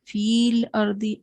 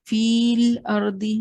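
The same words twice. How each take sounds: First: The first vowel is held long before the l. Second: The same.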